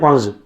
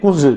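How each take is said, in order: First: The vowel is a gliding 'ow' sound. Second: The vowel is a rounded 'oo' sound. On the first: This is how people from another region say it. "वो कुलगांव वाले कहते हैं कौंज" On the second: This is how the speaker's own community says it. "हम कहते हैं कुंज"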